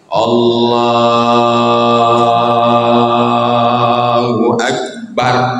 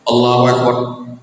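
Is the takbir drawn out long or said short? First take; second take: long; short. First: The takbir is drawn out long. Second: The takbir is said short and quick.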